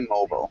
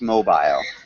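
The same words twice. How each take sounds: First: It is said with an American pronunciation. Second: It is said with a British pronunciation. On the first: "in the United States, we'd say mobile" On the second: "if you're in England, it's mobile"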